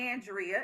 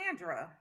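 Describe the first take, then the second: First: The name is said with three syllables. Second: The name is said with two syllables. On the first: The speaker calls it wrong. "It's not Andrea" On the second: The speaker calls it right. "It's Andra"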